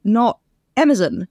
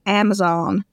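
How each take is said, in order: First: "Amazon" said the American way, ending in a full "-zahn"; mock American "Amazon"; American pronunciation. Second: "Amazon" said the British way, ending in a reduced "-zon"; imitating British speakers saying "Amazon"; British pronunciation. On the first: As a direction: give "Amazon" a strong, open last syllable. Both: Shown as a demonstration. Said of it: "They're like".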